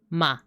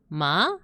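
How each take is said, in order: First: The pitch falls downward. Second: The pitch rises upward. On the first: "this one goes down" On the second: "a line going up, so your tone goes up"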